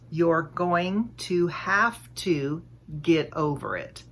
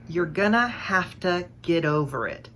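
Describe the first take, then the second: First: Each word is said separately and clearly. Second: The words run together in connected speech. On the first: "we rarely speak with such enunciation" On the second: "I said, you're gonna have to get over it"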